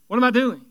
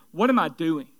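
First: "What am I doing?" asked higher and louder, leaning on "I"; emphatic repeat. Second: Said in the usual way. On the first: Shown as a demonstration. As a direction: punch "I" in "What am I doing?" the second time. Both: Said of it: "Number one is".

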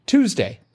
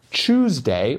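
First: "Tuesday" pronounced TOOZ-day, pitched high. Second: "Tuesday" drawn out as CHOOSE-day. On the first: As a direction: say "Tuesday" with a crisp t, no ch. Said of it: "as you like to say it". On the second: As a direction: say "Tuesday" with a ch at the start. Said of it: "or as you like to say it". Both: Shown as a demonstration.

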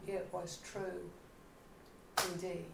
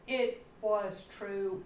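First: Much softer repeat of "It was true", almost to herself; a hushed inward echo of wonder; quiet echo. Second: Said in the usual way. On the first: Shown as a demonstration. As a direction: drop to a hush on "It was true".

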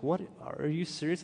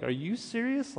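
First: Mildly incredulous question; retold disbelief. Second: High-pitched, incredulous question; retold heightened disbelief. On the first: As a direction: replay a first, restrained double take. Reacting to the surrogacy offer. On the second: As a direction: replay astonishment, pitch leaping up to a questioning end. Turns to husband, asks in disbelief.

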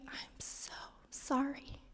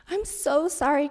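First: Slow, soft whisper; tender whisper. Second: Said in the usual way. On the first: Real, not acted. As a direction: whisper a heartfelt apology slowly. Apologizing to her crying daughter.

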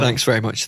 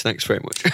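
First: Said in the usual way. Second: Breathy whispered thanks. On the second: Real, not acted.

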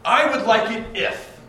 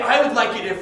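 First: "I would like it if" said slow and high, pressing the "I"; demo phrase. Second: "I would like it if" again, high and firm on "I"; repeat demo phrase. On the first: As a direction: lay weight on "I" in "I would like it if", slowly. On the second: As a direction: stress the "I" in "I would like it if". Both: Shown as a demonstration. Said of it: "I want you to say it like this".

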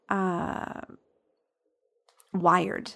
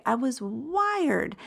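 First: Halting, hesitant "wired" after a long pause; "wired" comes out late and unsure, as if the word is hard to find; struggling to get the word out. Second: "wired" said slowly and clearly, with a falling tune; slow and deliberate. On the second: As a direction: spell out "I was wired" slowly and firmly as a correction. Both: Real, not acted. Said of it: "that word took me a minute to get out".

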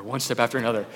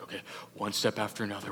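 First: Said in the usual way. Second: Softer, fast, nervous murmur; nervous steps in the dark, kept soft; hushed and careful. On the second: Retold or imitated. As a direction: count the steps under your breath. Inching through the dark cave.

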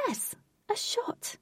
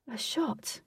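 First: "Yes, a shot" very high, soft and slow; high confirming reply. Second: "A shot" asked softly, pitch up; questioning. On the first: Fairy confirming her offer, high slow "Yes, a shot". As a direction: squeak "Yes, a shot" softly, drawn out. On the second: Girl offered a drink, softly querying "A shot". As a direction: ask "A shot" quietly, as a query. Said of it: "asked Katie". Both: A narrator's reading.

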